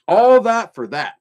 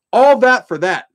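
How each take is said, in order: Both takes have the same delivery.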